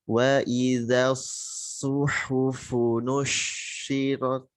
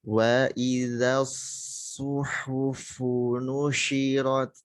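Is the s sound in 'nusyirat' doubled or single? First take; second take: doubled; single. First: The s sound is doubled and pressed. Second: The s sound is single and light. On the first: The speaker calls it wrong. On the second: The speaker calls it right.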